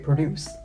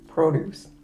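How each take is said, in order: First: The stress is on the second syllable. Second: The stress is on the first syllable. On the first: It means to make. "when it's to make, we say" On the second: It means vegetables and fruit. "don't we put the accent on the O"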